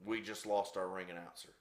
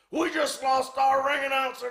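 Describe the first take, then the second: First: Low, soft understated remark; quiet aside. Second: Very high-pitched retold yell; exasperated shout. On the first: Real, not acted. Storyteller noting the announcer has fled, quiet aside. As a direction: drop it in softly after the commotion. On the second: Promoter telling Butcher off over the announcer, exasperated shout. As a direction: yell it as an outraged complaint, high throughout.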